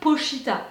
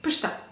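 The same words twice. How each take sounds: First: The name is said slowly and drawn out. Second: The name is said quickly and compactly. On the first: The speaker calls it wrong. "It's not Pochita" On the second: The speaker calls it right. "quickly, like he is"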